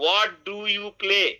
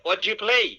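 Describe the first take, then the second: First: Each word is said clearly and separately. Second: The first three words blend into one. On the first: "আমরা বলতাম কি?" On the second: "একসাথে তিনটা word connect করে ফেলে একটা ওয়ার্ড বানিয়ে দিচ্ছে।"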